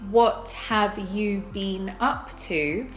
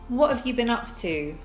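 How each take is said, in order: First: Each word is said separately and fully. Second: The words run together with reduced forms. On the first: The speaker calls it wrong. "We don't say" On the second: The speaker calls it right. "we connect those and treat it as one chunk"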